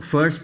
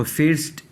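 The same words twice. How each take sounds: First: फर्स्ट with a neutral "ur" vowel; zabar vowel. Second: फिर्स्ट with a short "i" before r; wrong "i" vowel. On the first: Teacher showing how first is read, फर्स्ट with "ur". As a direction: say फर्स्ट as "furst". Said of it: "फर्स्ट पढ़ते हैं". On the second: Teacher warning students against a misreading, फिर्स्ट with "i". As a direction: mispronounce first as फिर्स्ट, "feerst". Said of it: "फिर्स्ट नहीं पढ़ते". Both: Shown as a demonstration.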